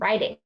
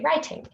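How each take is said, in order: First: The middle consonant is a soft, D-like tap. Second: The middle consonant is a crisp, clear T. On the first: "rather than writing" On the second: "A British speaker might, for some of them, say writing"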